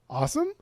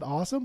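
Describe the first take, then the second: First: The voice rises like a question. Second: The voice falls like a plain statement.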